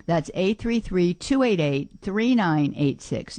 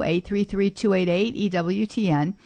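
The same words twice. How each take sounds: First: Slow digit by digit, each number clear; careful slow dictation of a phone line; slow spelled-out number. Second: Said in the usual way. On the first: Shown as a demonstration. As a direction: read the digits out slowly for listeners to note.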